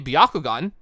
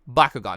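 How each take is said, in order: First: The first syllable is a 'bya' sound. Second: The first syllable is a plain 'ba' sound. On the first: The speaker calls it wrong. "I always am tempted to say Byakugan" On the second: The speaker calls it right. "I trying to pronounce this correctly"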